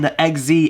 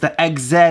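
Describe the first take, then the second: First: The name is said with an American pronunciation. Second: The name is said with a British pronunciation. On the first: "instead of saying" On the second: "I like the way the British say this"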